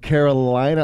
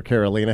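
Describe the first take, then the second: First: Carolina with a long "eye" in the third syllable; pronunciation variant. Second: Carolina with an "ee" in the third syllable; alternative pronunciation. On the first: Host unsure of caller's name, saying Carolina as Caro-LY-na. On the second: Host trying caller's name another way, Carolina as Caro-LEE-na. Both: Shown as a demonstration. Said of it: "or Carolina".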